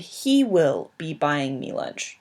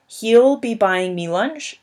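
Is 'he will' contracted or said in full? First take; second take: full; contracted. First: The words 'he will' are said in full. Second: The words 'he will' are contracted together. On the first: "even though they sound different" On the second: "even though they sound different"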